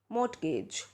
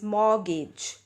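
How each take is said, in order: First: The middle t sound is pronounced. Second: The middle t sound is silent. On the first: The speaker calls it wrong. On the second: The speaker calls it right.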